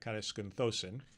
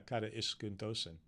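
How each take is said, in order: First: The 'ai' is run together as one vowel. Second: The 'a' and 'i' are said as separate vowels. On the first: The speaker calls it wrong. "I just kind of buzzed through it" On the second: The speaker calls it right. "Kata, because you got a compound"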